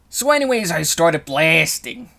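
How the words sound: It is an impression of the meme speaker.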